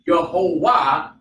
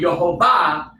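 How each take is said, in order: First: The middle consonant is a w sound. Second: The middle consonant is a v sound. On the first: The ancient form of the letter is used. "he's using the, the paleo uh, Wa sound" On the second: The modern form of the letter is used. "I'm using the Aramaic or the modern script today"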